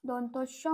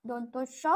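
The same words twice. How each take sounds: Both takes have the same delivery.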